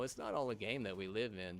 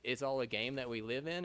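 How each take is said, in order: First: Said in the usual way. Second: Lightly mocking their line, rising at the end; mocking quote. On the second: Quoting people who call life a game, mild mockery. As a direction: echo the other view with a touch of scorn. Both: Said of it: "It's like, no".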